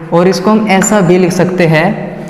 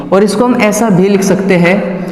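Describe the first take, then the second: Both takes have the same delivery.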